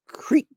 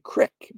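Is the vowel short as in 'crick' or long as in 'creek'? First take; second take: long; short. First: It has a long vowel, like 'creek'. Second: It has a short vowel, like 'crick'.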